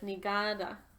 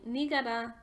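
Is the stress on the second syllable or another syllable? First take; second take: second; another. First: The stress is on the second syllable. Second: The stress is not on the second syllable. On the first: The speaker calls it right. "the stress is on the second A, or the second syllable" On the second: The speaker calls it wrong. "I've been saying that word wrong. I was saying Nigada"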